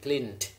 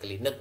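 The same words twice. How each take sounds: First: The -ed ending is blended into the word. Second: The -ed ending is sounded out as spelled. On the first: The speaker calls it right. "tapi cleaned" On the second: The speaker calls it wrong. "Nanti bacanya bukan cleaned begitu ya"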